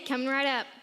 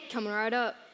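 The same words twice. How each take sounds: First: It is said in a plain voice. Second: It is said in a gruffer voice.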